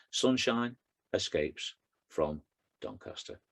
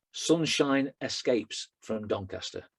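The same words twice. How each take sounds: First: "Sunshine, escapes, from, Doncaster" slow and separated by pauses; words set apart. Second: "Sunshine escapes from Doncaster" slow, emphasis put in the wrong place; misplaced emphasis. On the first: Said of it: "the words". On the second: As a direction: announce "Sunshine escapes from Doncaster" slowly like a headline, oddly stressed. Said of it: "emphasis in the wrong place there". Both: Shown as a demonstration.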